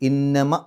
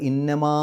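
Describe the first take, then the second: First: The final vowel is kept short. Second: The final vowel is drawn out long. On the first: The speaker calls it right. "ഇന്നമ എന്നേ പറയുള്ളൂ, നീട്ടാത്ത മീമ് പറയുന്ന പോലെ" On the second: The speaker calls it wrong. "ഇന്നമാ എന്ന് നീട്ടൂല"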